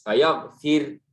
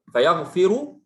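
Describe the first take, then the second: First: The r is thin and ends without a vowel. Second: The r is thick, followed by a vowel. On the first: "ra-nya mati ... terqiq, tipis" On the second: "indal wasli ra mufakhama, ra-nya tebal"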